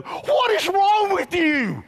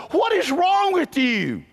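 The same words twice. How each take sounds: First: High, loud, slow shout of disbelief; mock-outraged yell; incredulous shout. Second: High, slow, loud disbelieving question; a bit of mock disbelief from the crowd; incredulous onlooker. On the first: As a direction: throw the question right back at them. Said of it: "I wanna look back at them and go". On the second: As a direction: ask it like they think you've lost it. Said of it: "they look at me and they go".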